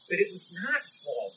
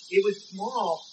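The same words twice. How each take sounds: First: "not" leaned on, slower and softer; slow down and press the word "not"; stress on NOT. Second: Said in the usual way. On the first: Shown as a demonstration. Preacher overturns his own words, slow stress on "not".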